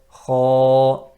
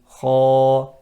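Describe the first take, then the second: No difference in how they are said.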